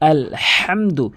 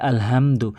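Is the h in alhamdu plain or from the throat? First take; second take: throaty; plain. First: The h is made deep in the throat. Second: The h is a light, plain breath sound. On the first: The intended meaning is kept. The speaker calls it right. "হাটি হলকের মাঝখান থেকে" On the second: The meaning of the word changes. The speaker calls it wrong. "অধিকাংশ লোকে বলে"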